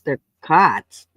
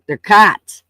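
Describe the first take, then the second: First: Said in the usual way. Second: "cots" said louder and rising; stress on cots. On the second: Shown as a demonstration. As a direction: repeat "cots" with a loud rise.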